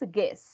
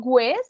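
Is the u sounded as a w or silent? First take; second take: silent; sounded. First: The u is silent. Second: The u is sounded like a w. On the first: The speaker calls it right. "This works like in Spanish" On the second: The speaker calls it wrong. "No guess"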